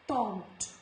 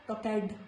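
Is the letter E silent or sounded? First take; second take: silent; sounded. First: The E is silent, one syllable only. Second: The E is sounded as an extra syllable. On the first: The speaker calls it right. "it's talked" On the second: The speaker calls it wrong. "not talked"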